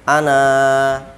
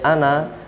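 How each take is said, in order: First: The final vowel is long. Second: The final vowel is short. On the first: The reader stops after the word. "kalau wakof panjang" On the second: The word runs on without a pause. "selalu dibaca pendek"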